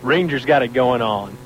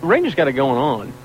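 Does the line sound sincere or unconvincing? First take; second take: unconvincing; sincere. First: It sounds flat and unconvincing. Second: It sounds earnest and sincere.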